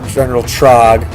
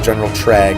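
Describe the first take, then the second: First: The vowel in the name sounds like 'trog'. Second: The vowel in the name sounds like 'trag'. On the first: The speaker calls it wrong. "I learned I mispronounced it. It's not General Trog" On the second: The speaker calls it right. "it's actually General Trag"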